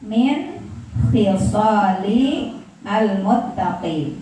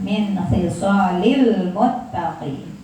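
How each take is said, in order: First: The words are read separately, not linked. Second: The words are linked into one smooth flow.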